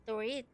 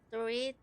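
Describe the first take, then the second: No difference in how they are said.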